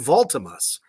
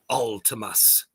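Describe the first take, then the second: First: The name begins with a V sound. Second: The name begins with a vowel sound. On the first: The speaker calls it wrong. "I was saying Voltimus the whole time" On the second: The speaker calls it right. "it is Ultimus"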